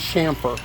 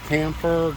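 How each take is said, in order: First: The word begins with a ch sound. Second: The word begins with a k sound. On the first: The speaker calls it right. "the correct pronunciation is chamfer" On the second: The speaker calls it wrong. "Some people call it camphor"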